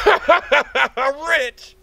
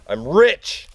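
First: Laughing. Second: Excited. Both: Acted. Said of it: "I'm rich repeated".

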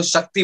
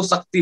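First: शक्ति said with a clear sh, shakti; the radio jockey's proper शक्ति with sh; correct pronunciation. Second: शक्ति said with s for sh, sakti; wrong pronunciation. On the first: Shown as a demonstration. Radio jockey saying the word correctly, शक्ति with a clean sh. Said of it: "एक radio jockey उस शब्द". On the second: Retold or imitated. Aspiring boy mispronouncing the word, शक्ति as sakti. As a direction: mimic the common mistake, शक्ति as sakti. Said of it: "जो आम लड़का है".

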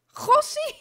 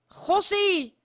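First: "Gossie" much higher, rising; squeaky exclamation. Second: Said in the usual way. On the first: Real, not acted. Repeats, exaggerated.

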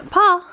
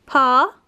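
First: Loud, high call with a falling tune; calling a name. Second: Said in the usual way. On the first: Real, not acted. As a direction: call the dog sharply.

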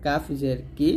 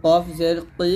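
First: "কাফ জের কি" with a light forward k; thin Kaf. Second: "কফ জের কি" with a back, rounded q, like "qoi"; heavy Qaf. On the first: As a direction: keep "কি" thin and easy. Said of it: "পাতলা". ("কি" পাতলা করে) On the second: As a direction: push "কি" full from the back of the mouth. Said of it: "কফটা আপনাকে মোটা করে উচ্চারণ করতে হবে". ("কি" মোটা করে) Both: Shown as a demonstration.

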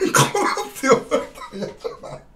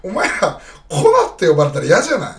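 First: High, breathy laugh through the words; giggling repeat of the complaint. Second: Calling out, much louder; loud, insistent question; loud appeal. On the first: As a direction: crack up halfway through the question. Repeats the question while laughing. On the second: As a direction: put it straight to the viewers, loud. Pressing viewers about a nickname. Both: Real, not acted.

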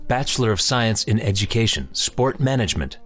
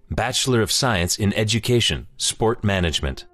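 No difference in how they are said.

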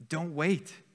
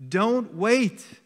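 First: Said in the usual way. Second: "Don't wait" louder and higher, with WAIT hit hard; urgent plea. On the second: Shown as a demonstration. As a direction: punch WAIT as a loud, high plea.

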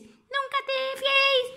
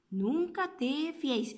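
First: Put-on high child voice repeating the words; high little turtle echoing mama's saying. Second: Soft, hushed delivery of the saying; softly. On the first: Little turtle copying mama, high and curious. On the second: Acted. Mother teaching the saying, soft and hushed. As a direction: say it gently and quietly, like a secret. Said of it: "suave, escucha".

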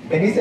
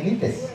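First: Said in the usual way. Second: Vinites, with i and a final s; ladino pronunciation. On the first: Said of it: "se dice vinites". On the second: Shown as a demonstration. Teacher correcting veniste, ladino pronunciation. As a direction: say vinites, moving the s to the end. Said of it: "Veniste no se dice veniste".

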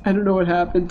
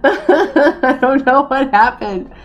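First: Said in the usual way. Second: Slow, laughing sing-song I don't know what happened. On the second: Real, not acted. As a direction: laugh it out helplessly, drawn out. Repeats line laughing.

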